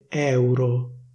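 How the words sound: The E vowel is open. This is the standard pronunciation. "la pronuncia ufficiale prevede una E aperta"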